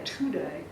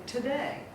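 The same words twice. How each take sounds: First: "today" with a full, stressed first syllable, TOO-day; "today" said TOO-day, as a wrong example. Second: Said in the usual way. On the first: Shown as a demonstration. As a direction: lean on the "to" of "today". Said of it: "We don't say today". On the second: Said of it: "we say today".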